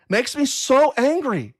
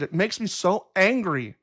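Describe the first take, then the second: First: "so" stressed, higher and slow; mild real anger. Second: Said in the usual way. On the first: Real, not acted. Host fuming at trolls, slow mild anger. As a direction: drag out "so angry" with mild heat.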